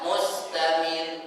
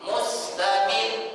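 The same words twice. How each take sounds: First: The final R is said plainly without emphasis. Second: The final R is pressed with extra emphasis. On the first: The R is single. The speaker calls it wrong. "bukan mustamir. Berarti rohnya enggak bertasydid" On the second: The R is doubled. The speaker calls it right. "tekan di sini"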